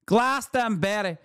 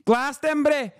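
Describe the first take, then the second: First: Glastonbury said in the mock voice, falling, no extra push; lightly mocking impression, word dropped plainly. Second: Mock outrage stressed on Glastonbury; outraged Glastonbury. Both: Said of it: "my natural, organic Middle Eastern accent".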